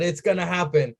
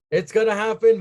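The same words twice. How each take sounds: First: Said in the usual way. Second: Higher and louder, building glee; gleeful disbelief; excited repeat. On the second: Retold or imitated. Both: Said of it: "I was like".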